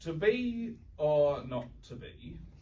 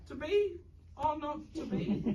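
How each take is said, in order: First: It is said as a Lancashire farmer. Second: It is said in a tiny mouse voice.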